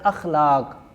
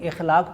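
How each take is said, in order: First: The word begins with an 'a' vowel. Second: The word begins with an 'i' vowel. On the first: The speaker calls it right. "ये लफ्ज़ है अखलाक" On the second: The speaker calls it wrong. "लोग इखलाक पढ़ते हैं, गलत है"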